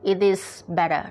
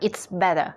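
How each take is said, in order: First: It is said as three full separate words. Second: It is contracted into two words, it's better. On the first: "ไม่ต้องรีบนะคะ" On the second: "แต่ถ้าอยากพูดแบบสั้นก็เป็น"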